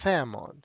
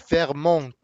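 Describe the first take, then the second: First: It is said with a British accent. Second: It is said with a French accent. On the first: "read it with a British accent" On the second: "Like French would be"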